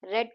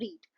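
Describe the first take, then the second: First: The vowel is short, like in 'red'. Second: The vowel is long, like in 'reed'. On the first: Someone read it in the past. "जब आप उसे रेड बोल रहे हो यानी वो past tense में हो गया" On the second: Someone is reading now. "read का मतलब हुआ कोई चीज आप पढ़ रहे हो"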